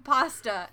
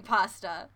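First: Pasta with an open ah, PAH-stuh; own American pronunciation. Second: Pasta with a short British a, PASS-tuh; imitated British accent. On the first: Shown as a demonstration. Co-host showing how "I am saying pasta", American pronunciation. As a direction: say pasta the American way, broad first vowel. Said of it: "I am saying pasta". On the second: Co-host showing how "you are saying pasta", imitated British accent. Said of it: "you are saying pasta".

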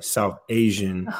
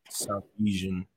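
First: "South Asian" said slowly and clearly, "Asian" as AY-zhun; clear repeat. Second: "South Asian" said quietly and unclearly, "Asian" slurred; mumbled. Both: Real, not acted. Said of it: "South what?".

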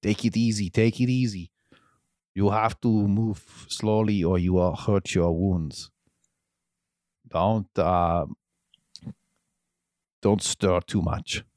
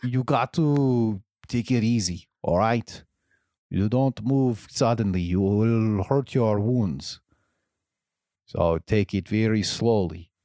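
First: Put-on restrained second go at an Austrian accent; lightly accented, careful bedside caution; a toned-down Arnold accent, near normal pitch; Arnold impression. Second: Put-on wandering accent, Austrian drifting into Russian; all-over-the-place Arnold accent, easing down slower; Arnold impression. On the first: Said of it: "All right, I'll say it again". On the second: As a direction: attempt a gentle Austrian action-hero accent. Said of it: "let me get the voice".

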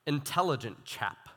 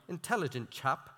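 First: Said in the usual way. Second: A light, quick go at an English accent; lightly mock English accent; attempted English accent. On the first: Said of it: "I wish I could have done". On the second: Shown as a demonstration. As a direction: say it softly with a hint of English accent. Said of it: "could have done an English accent".

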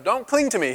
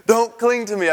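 First: Higher-pitched, detached request; talking from a distance. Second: Higher, louder, with a laugh; playfully shaking off. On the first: Jesus to Mary from a distance, detached. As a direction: say it higher, as if she stands apart. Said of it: "talking to her from a distance". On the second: To boys hanging on the ankles, playful protest. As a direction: laughingly protest as if someone hangs on you. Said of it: "I picture my boys, like, when they want to hang on". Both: Retold or imitated.

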